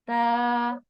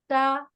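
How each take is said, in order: First: The vowel is drawn out long. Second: The vowel is short and quick. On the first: "जब उसके साथ अलिफ का इजाफा होगा" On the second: "जब जबर होगी तो हमने इससे ज्यादा क्वांटिटी नहीं बढ़ानी"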